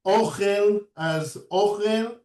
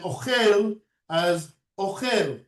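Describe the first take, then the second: First: "ochel" stressed on the first syllable, O-chel; mil'el stress. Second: "ochel" stressed on the last syllable, o-CHEL; mil'ra stress. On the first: Teacher telling students how to pronounce it, "ochel" with first-syllable stress. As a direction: lean long on the O of "ochel". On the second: Teacher telling students how to pronounce it, "ochel" with final stress. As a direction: land on the end of "ochel". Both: Shown as a demonstration. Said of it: "two different accents".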